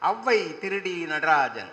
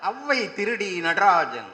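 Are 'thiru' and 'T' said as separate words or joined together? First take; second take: joined; joined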